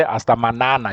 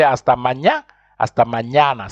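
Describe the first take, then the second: First: MANANA with a plain N, "ma-na-na"; mispronounced without ñ. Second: MAÑANA as "ma-nya-na"; correct ñ pronunciation. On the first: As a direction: say MANANA wrongly, no "ny" sound. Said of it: "You don't say". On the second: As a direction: sound the Ñ in MAÑANA as "ny". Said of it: "You say". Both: Shown as a demonstration.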